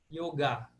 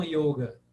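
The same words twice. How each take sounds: First: Yoga stressed on the last syllable GA; French-style Yoga, weight at the end; French final stress. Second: Yoga stressed on first syllable YO; yoga with weight at the start, short GA; Portuguese stress. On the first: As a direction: say Yoga as yo-GA, softer and lower. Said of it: "em francês acentua tudo no final". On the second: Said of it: "Eles não falam yoga". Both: Shown as a demonstration.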